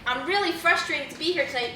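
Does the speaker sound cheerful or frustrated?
cheerful. It is said in a cheerful, upbeat tone. The listener doubts the speaker is frustrated. "you might be like, hmm"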